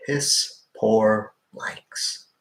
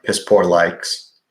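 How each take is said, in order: First: Very slow, stretched out; slow drawn-out repeat. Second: Said in the usual way. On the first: Real, not acted. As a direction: drag every word out.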